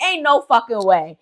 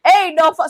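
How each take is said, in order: First: Said in the usual way. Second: Higher and louder, cut off mid-swear; rising mock outrage, bitten off; imitating an indignant relative, louder; mock outburst. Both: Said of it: "Everybody's just looking like".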